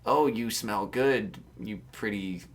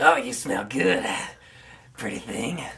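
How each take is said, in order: First: Low, slow, softer creepy hobo voice. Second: Creepy hobo voice. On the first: Shown as a demonstration. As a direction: drawl it out like a leering hobo. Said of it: "Say something like". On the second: Acted. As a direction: croon it like a cracked old drifter. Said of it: "I'll say it in the voice".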